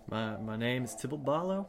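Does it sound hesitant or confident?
hesitant. It is said hesitantly, without confidence.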